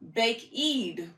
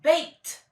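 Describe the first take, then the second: First: The word has two syllables ending in eed. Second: The word is one syllable ending in t. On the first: The speaker calls it wrong. "That doesn't sound right" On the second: The speaker calls it right. "we would say"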